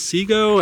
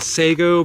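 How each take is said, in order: First: The first syllable sounds like 'see'. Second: The first syllable sounds like 'say'. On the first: The speaker thinks this is the correct name. The speaker calls it right. "but I think it's" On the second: This is how the speaker used to say it. The speaker calls it wrong. "I used to pronounce it"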